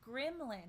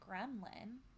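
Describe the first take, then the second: First: The first syllable sounds like 'grim'. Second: The first syllable sounds like 'grem'. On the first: The speaker calls it right. "It's Gremlin, ... Because it's Grim" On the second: The speaker calls it wrong. "not Gremlin"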